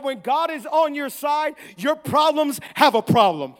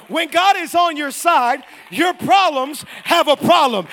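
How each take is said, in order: First: Raised preacher's voice; preaching emphasis. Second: Loud, slow preacher's proclamation; emphatic louder repeat. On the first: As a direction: make the point firmly to the congregation. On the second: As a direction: drive it home so they hear you this time. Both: Real, not acted. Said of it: "I don't think you heard me".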